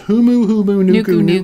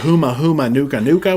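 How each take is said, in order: First: The repeated syllables end in an 'oo' vowel. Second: The repeated syllables end in an 'ah' vowel. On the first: The speaker calls it right. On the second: The speaker calls it wrong. "which yeah, is not too. correct"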